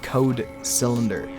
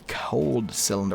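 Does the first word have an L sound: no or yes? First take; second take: no; yes. First: The first word is said without an L sound. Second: The first word is said with an L sound. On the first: The speaker calls it right. "It's code" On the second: The speaker calls it wrong. "Why am I saying cold?"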